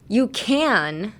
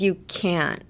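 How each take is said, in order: First: CAN drawn out on its vowel and n; open can. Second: CAN'T with the n cut off, t unreleased; stopped can't. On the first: Teacher comparing can against can't, long open can. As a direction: let can ring on, no stop. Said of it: "And the difference is". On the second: Teacher comparing can't against can, stopped ending. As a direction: close can't off at the end, silent t. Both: Shown as a demonstration.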